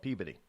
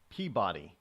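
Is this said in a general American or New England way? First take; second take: New England; general American. First: It is said in a local New England way. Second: It is said in a general American way. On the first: "they don't know how to pronounce things here in New England, so they call it Peabody" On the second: "for the rest of you, it would be Peabody"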